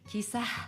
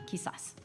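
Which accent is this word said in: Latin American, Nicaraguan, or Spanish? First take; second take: Nicaraguan; Latin American. First: It is said without the final s sound. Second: Both the z and the s sound like s. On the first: "if you were from a, a village in Nicaragua, you'd say" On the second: "Just pronounce the Z and the S like S's"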